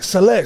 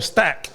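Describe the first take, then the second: First: The word sounds like two syllables, 'select'. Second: The word is one short syllable, 'stack'. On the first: The speaker calls it wrong. "he pronounced it wrong" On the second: The speaker calls it right. "no, stack"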